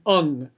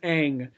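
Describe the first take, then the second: First: The name has a vowel like in 'up'. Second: The name has a vowel like in 'cat'. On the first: This is how the movie says the name. "In the movie, they were pronounced it Ung" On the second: This is how the show says the name. "in the show, the character's name is Aang"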